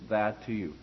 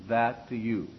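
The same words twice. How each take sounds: No difference in how they are said.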